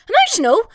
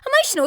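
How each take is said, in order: First: High, loud incredulous echo rising at the end; outraged disbelief. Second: "Emotional?" still high, dropping to a falling tune; outraged disbelief. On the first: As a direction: fling the word "Emotional?" back, scandalised and loud with a rising question. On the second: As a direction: hammer "Emotional?" home, falling and scornful. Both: Retold or imitated. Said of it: "And I was like".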